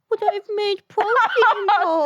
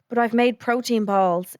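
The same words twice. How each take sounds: First: It is said in a childish baby voice. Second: It is said in a normal adult voice.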